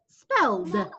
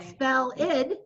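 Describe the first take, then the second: First: The ending is just a 'd' sound. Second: The ending is an extra syllable, 'id'. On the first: The speaker calls it right. "It's spelled. Just like you added one letter to the end" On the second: The speaker calls it wrong. "It's not spell id"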